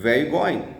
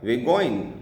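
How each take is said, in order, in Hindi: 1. शब्द आपस में जुड़ जाते हैं और बहुत छोटे हो जाते हैं। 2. शब्द आपस में जुड़ जाते हैं और बहुत छोटे हो जाते हैं।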